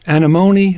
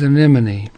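First: The stress falls on the third syllable. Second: The stress falls on the second syllable. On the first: This is the Latin genus name. "the Latin generic is" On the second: This is the English common name. "the English common is"

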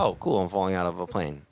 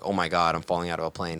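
First: It sounds relaxed and casual. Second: It sounds shocked and panicked.

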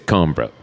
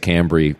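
First: It ends in a clipped m-b-r cluster. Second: It ends in a bree sound. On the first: This is how it is said in France. "the M and the B and the R are pronounced, but kind of clipped" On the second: This is how people in cities say it. "in cities, everybody tends to say Cambry"

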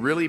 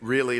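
First: It is said in a sincere tone. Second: It is said in a sarcastic tone. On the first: The speaker gently questions the claim. The speaker calls it right. "He's saying" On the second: The speaker doubts and mocks the claim. The speaker calls it wrong. "like I would say it, really like sarcastic"

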